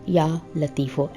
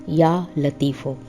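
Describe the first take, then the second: No difference in how they are said.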